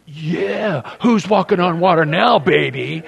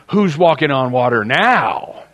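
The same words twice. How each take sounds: First: Higher, smug gloating at the others; cocky taunt. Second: Who's hit hard, falling question; preacher's stress on who's. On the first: Retold or imitated. Peter gloating at the disciples from the water, smug taunt. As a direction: rub it in like a show-off. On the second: Shown as a demonstration. Preacher asking the congregation, stress on who's. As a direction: lean on who's to drive the point. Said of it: "here in heaven".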